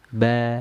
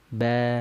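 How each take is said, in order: No difference in how they are said.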